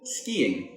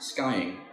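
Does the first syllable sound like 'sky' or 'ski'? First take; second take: ski; sky. First: The first syllable sounds like 'ski'. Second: The first syllable sounds like 'sky'. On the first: The speaker calls it right. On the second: The speaker calls it wrong. "not skying"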